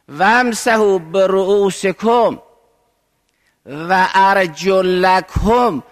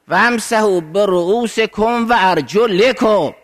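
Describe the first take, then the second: First: The last word is read with an 'a' vowel. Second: The last word is read with an 'i' vowel. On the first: The feet are to be washed. "ما ارجلکم میخوانیم" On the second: The feet are to be wiped. "باید به جر بخونیم"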